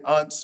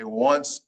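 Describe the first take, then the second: First: The word begins with a plain vowel sound. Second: The word begins with a W sound. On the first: The speaker calls it wrong. "You don't say unce" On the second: The speaker calls it right. "You say once; It sounds like a W"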